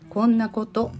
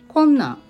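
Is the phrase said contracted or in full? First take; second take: full; contracted. First: The phrase is said in its full form. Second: The phrase is said in a shortened form. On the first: "こんなことは縮小されて" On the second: "縮小されてこんなんとなります"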